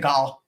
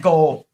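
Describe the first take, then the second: First: "goal" repeated with the mistaken, Scottish-sounding vowel; mock-quoting the mispronounced "goal"; slipped vowel in "goal". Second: Said in the usual way. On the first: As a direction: copy your own slip on "goal". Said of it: "I said goal". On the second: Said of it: "I meant goal".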